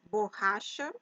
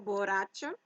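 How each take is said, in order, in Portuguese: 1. O duplo R é dito do jeito português. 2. O duplo R é dito do jeito espanhol. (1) "Em português, a pronunciação é borracha" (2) "e não borracha"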